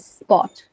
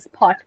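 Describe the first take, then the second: First: The p is said without a puff of air. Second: The p is said with a puff of air. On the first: "you don't say aspirated" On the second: "It's going to sound a bit weird"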